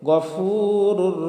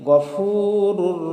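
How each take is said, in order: The two takes are said the same way.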